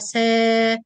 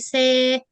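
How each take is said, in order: First: The vowel is said with the mouth open vertically. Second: The vowel is said with spread, smiling lips. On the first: The speaker calls it right. "open vertical without smile" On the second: The speaker calls it wrong. "we say say, ... both of them wrong"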